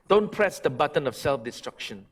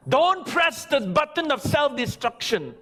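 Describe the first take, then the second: First: Don't press the button of self-destruction, plain level and calm; calm repeat. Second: Don't press the button of self-destruction, high and forceful, Don't punched; forceful warning. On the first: Pastor repeats his warning to the church, calm and level. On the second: Pastor warns the church, Don't press the button of self-destruction, forceful. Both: Shown as a demonstration.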